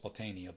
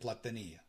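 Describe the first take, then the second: First: The name is said with an American pronunciation. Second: The name is said with an Italian pronunciation. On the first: This is how people in the US say it. "here in the U S we call it" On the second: This is how people in Italy say it. "They pronounce it"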